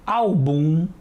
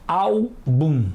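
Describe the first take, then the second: First: "álbum" with the stress moved to the end, al-BUM; wrong-stress demonstration. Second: "álbum" as ÁL, pause, bum, strong first syllable; separated syllables. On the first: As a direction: echo the misreading, "álbum" as al-BUM. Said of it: "Não é assim que costumamos falar". ("álbum" com a última sílaba forte) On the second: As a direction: break "álbum" in two, stressing ÁL. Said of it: "Vamos separar as sílabas". ("álbum" em sílabas separadas, ÁL forte) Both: Shown as a demonstration.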